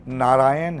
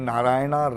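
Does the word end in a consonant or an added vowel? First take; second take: consonant; added vowel. First: The word ends on the n consonant. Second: The word ends with an added a vowel. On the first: The speaker calls it right. "नारायण है" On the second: The speaker calls it wrong. "नारायणा रामा नहीं है"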